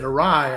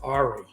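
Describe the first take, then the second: First: The word ends in an 'eye' sound. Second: The word ends in an 'ee' sound. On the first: It is how people actually say the word. The speaker calls it right. "audibly they said awry" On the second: It is a misreading from seeing the word written. The speaker calls it wrong. "I used to pronounce it Ari"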